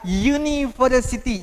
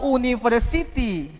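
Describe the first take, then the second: First: University begins with a y sound before the vowel. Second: University begins with a plain vowel, no y sound. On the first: The speaker calls it right. "tapi bunyinya adalah university. Y, U" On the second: The speaker calls it wrong. "bukan a university"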